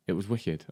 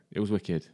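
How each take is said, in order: Both takes have the same delivery.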